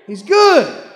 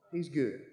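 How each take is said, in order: First: Loud, high, ringing he's good; shouted praise. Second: He's good dropped to a soft, low near murmur; hushed repeat. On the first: Preacher to the church, shouting that God is good. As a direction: belt it out to the back pew. Echo after the shout, then hushed. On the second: Preacher to the church, softly echoing his own shout. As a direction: pull it back to almost nothing. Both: Real, not acted.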